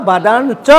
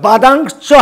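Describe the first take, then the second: First: বাদান, চ with a plain n in place of the anusvara; simplified n sound. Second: বাদাং, চ with a loud, held ng before চ; full anusvara pronunciation. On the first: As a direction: say বাদান, চ with an easy n before a separate চ. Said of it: "অনুস্বর আর তালু বর্ষ বাদ দিয়ে দিছি". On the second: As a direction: hit বাদাং hard on the ng, then release চ. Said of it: "আমরা যদি ওইটা উচ্চারণ করলাম". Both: Shown as a demonstration.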